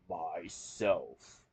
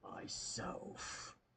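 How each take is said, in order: First: It is said loud, clear and cheerful. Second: It is whispered very softly.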